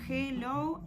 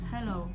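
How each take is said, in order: First: The word starts with no h sound. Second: The word starts with a soft breathy h. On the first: The speaker calls it wrong. "la H es muda" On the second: The speaker calls it right. "Es algo intermedio entre no sonar y la J"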